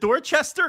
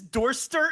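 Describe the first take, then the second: First: The middle syllable is said, three syllables. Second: The middle syllable is dropped, two syllables. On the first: It is said as it is spelled. The speaker calls it right. "it's Dorchester, I think" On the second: It is shortened the way Worcester is. The speaker calls it wrong. "Is this Dorster instead of Dorchester?"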